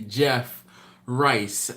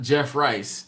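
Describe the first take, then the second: First: The two words are said separately. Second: The two words are run together. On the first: The speaker calls it right. "it's supposed to be" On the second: The speaker calls it wrong. "not Jeff Rice, uh, altogether"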